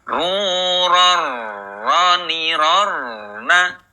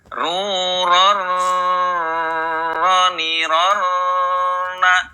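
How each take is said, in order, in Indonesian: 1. Bunyi r ditahan secukupnya. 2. Bunyi r mengalir terlalu lama. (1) "ada sifat tawasud, pertengahan antara mengalir dan tertahannya suara" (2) "ini terlalu menga mengalir"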